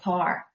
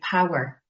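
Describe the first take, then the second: First: It is said in a Belfast accent. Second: It is said in a neutral accent.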